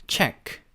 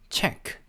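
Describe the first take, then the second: Both takes have the same delivery.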